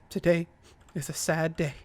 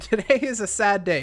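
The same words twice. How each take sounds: First: It is said in a sad voice. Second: It is said in a cheerful voice.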